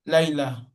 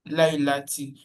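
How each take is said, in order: First: The word ends on a vowel without a t. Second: The word is said with a t sound and vowel. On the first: The speech stops after this word. "This show that we are stopping at the end" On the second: The speech continues on to the next word. "we are not stopping at the end. We are continuing"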